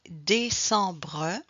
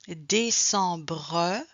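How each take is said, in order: First: A final vowel sound is heard after the br. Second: The same.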